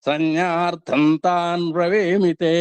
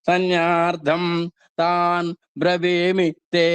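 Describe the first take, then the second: First: The words are joined smoothly without pauses. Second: The words are read separately with pauses. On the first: "స్వాధీనంలోకి వచ్చిన తర్వాత" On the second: "విడివిడిగా చదువుకోవచ్చు"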